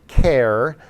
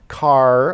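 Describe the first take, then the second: First: It begins with a k sound, like care. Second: It begins with a k sound, like car. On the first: "or care" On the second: "some people actually pronounce this car"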